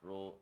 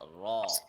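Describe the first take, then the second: First: The vowel is a fully rounded o. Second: The vowel is an open aw sound. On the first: The speaker calls it wrong. "make their lips fully round" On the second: The speaker calls it right. "the correct one is raw, the aw sound"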